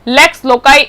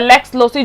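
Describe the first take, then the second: First: The c in loci sounds like k. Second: The c in loci sounds like s. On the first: "जो भी आप प्रोनाउंस करना चाहें" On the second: "जो भी आप प्रोनाउंस करना चाहें"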